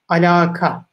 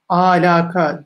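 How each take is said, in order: First: The vowels are kept short. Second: A vowel is drawn out. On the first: The speaker calls it right. "kelime aslı ne?" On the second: The speaker calls it wrong. "Bu ağız alışkanlığı tamamen"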